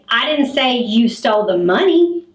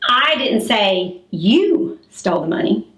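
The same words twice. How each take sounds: First: The word money carries the strongest stress. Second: The word you carries the strongest stress. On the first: Something other than the money was taken. "you stole the purse that the money was in" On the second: Someone else was accused of taking it. "that means that I said somebody else stole the money"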